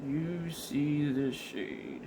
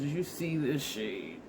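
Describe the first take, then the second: First: Slow and deliberate, drawing it out; slow, emphatic. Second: Said in the usual way. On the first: Shown as a demonstration. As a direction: spell it out slowly.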